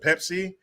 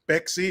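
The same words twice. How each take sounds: First: It is said with a plain English accent. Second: It is said with a Mexican Spanish accent.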